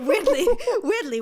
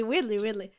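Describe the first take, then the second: First: High, loud, giggling through the words; laughing. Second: Said in the usual way. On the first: Real, not acted. To her cohost about Danish accents, laughing. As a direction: laugh it out, much higher and louder. Laughing at own odd turn-on.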